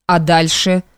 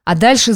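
First: A light asking rise; a mild quizzical question. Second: A touch quicker and brighter; mildly hurried eager reply; hurrying. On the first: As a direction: ask it, curious and doubting. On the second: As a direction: rush in eagerly to answer. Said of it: "заспешил Саша Николаевич". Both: A narrator's reading.

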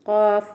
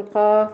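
First: قاف with the final f held and breathed; قاف said correctly with a full f; correct qaf. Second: قاف with the final f swallowed; قاف said wrongly without its f; wrong qaf. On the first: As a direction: give the f in قاف its time. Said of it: "وين الفاء؟". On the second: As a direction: drop the f in قاف. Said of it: "لا نقول قاف". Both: Shown as a demonstration.

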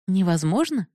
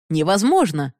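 First: Mocking repeat. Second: Mild cry of disbelief, a bit louder; shout. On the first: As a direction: throw his word back at him. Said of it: "повторила Бенадини". (насмешливый переспрос «Невозможно?») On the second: Acted. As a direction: reject it outright, sharply. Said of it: "крикнул Бихари". (громкое восклицание «Невозможно!» с падением)

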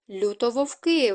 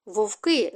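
First: Correction with «Люто» added before «вовки», falling at the end; correcting. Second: Short cry of alarm, barely raised; understated shriek. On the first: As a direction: correct them firmly: «Люто вовки», one term, dropping at the close. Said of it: "виправив Бран". (виправляючи: «Люто вовки», зі спадом наприкінці) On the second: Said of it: "зойкнула Галя". (стриманий зойк) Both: A narrator's reading.

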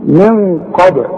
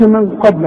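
First: قبل said as qab-e, the b popped open; qalqalah on ب. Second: قبل with the ب held shut, no bounce; no qalqalah. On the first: Teacher isolating the ba for students, bounced ب in قبل. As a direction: release the ب in قبل with a small echoing bounce. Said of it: "اوعى تنسى القلقلة". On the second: Teacher warning against the hard way, unbounced ب in قبل. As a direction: run the b straight into the l in قبل. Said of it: "ما تقولش من قبل حتى تلاقي فيه صعوبة". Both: Shown as a demonstration.

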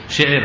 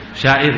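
First: "Syair" said as syi'ir, with an i in the first syllable; syi'ir pronunciation. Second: "Syair" said as sya-'ir, open a then i; sya'ir pronunciation. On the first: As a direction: say "Syair" with the first vowel narrowed to syi-. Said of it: "Bikin syi-, syair". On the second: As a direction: say "Syair" with an open a in the first syllable. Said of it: "Fahim syair?". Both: Shown as a demonstration.

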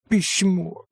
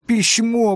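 First: Excited call. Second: Louder excited call. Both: A narrator's reading. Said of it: "восклицала она весело".

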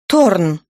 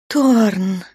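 First: «Торн» said sharply and a bit louder, falling; irritated. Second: Moaning his name. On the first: Natasha rebukes Thorn for his worry, irritated. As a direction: snap «Торн» out in annoyance. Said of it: "раздражённо ответила Наташа". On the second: Natasha moans Thorn's name in bed, moaning. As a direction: breathe «Торн» out as a moan. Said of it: "простонала Наташа". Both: A narrator's reading.

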